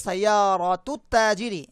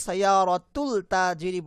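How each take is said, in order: First: সাইয়ারাতুত তাজিরি with the lam assimilated into a doubled t, slow and careful; slow clear সাইয়ারাতুত তাজিরি, lam dropped into the t; correct Arabic, silent lam. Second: সাইয়ারাতুল তাজিরি with a clear l before the t; the mistaken reading সাইয়ারাতুল তাজিরি, l pronounced; wrong version, lam sounded. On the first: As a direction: say সাইয়ারাতুত তাজিরি as -tut ta-, no l sound. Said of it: "এখানে লামটা pronounce হচ্ছে না". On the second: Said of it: "আমি কিন্তু সাইয়ারাতুল তাজিরি বলছি না". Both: Shown as a demonstration.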